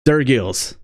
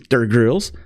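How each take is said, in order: First: There is no R sound after the G. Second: An R sound follows the G. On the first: The speaker calls it right. "they pronounced my name right" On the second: The speaker calls it wrong. "People love to add an R after the G"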